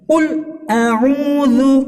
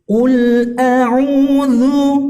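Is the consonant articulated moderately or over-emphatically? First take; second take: over-emphatically; moderately. First: The consonant is articulated over-emphatically. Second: The consonant is articulated with moderate clarity. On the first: The speaker calls it wrong. "jangan terlalu jelas seperti ini" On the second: The speaker calls it right. "jelasnya itu normal saja ya"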